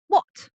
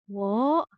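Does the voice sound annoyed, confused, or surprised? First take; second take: annoyed; confused. First: It is said in an irritated, annoyed tone. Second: It is said in a confused, puzzled tone. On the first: The speaker is irritated. "it's showing sort of annoyance, I guess, um, irritation" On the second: The speaker does not understand.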